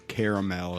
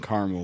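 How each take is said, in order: First: It is said in a British way. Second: It is said in an American way.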